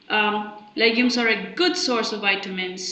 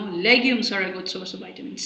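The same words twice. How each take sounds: First: The main stress falls on 'good'. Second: The main stress falls on 'legumes'. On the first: "The alignment shows that this rise fall is on good instead of vitamins or legumes" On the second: "not, for instance, wheat or rice or bread. So instead of bread"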